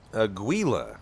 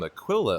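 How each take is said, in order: First: The middle consonant is a G sound. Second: The middle consonant is a K sound. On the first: The speaker calls it right. "there we go" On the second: The speaker calls it wrong. "I've been pronouncing your name Aquila all day"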